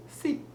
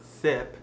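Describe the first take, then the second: First: SEEP with a French "ee" vowel; French-accented sip, said as SEEP; short I as E. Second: Said in the usual way. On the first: Shown as a demonstration. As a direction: stretch the vowel of SEEP to a clear "ee". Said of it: "it almost becomes an E". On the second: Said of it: "So it's not sip".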